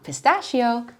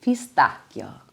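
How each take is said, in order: First: Pistachio said the English way with a SH; anglicized mispronunciation. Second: Pistacchio slow and lower, pee-STAHK-kyo; correct Italian pronunciation. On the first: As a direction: say "pistachio" as pi-STASH-ee-o. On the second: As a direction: hit the hard K in "pistacchio". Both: Shown as a demonstration. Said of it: "not pistachio".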